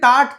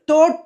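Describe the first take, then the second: First: The vowel is not an 'o' sound. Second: The vowel is an 'o' sound. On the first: The speaker calls it wrong. "తాట్ కాదు" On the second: The speaker calls it right. "అన్నీ ఓలేనండి"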